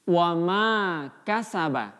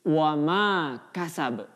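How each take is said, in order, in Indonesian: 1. Kata terakhir berakhir dengan bunyi vokal. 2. Kata terakhir berakhir dengan bunyi konsonan. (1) "dibaca utuh" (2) "Ketika kita hentikan bacaannya menjadi"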